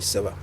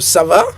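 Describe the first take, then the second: First: It is said with a statement intonation. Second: It is said with a questioning intonation. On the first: It answers that one is doing fine. "you answer by saying ça va" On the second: It asks how someone is doing. "So ça va"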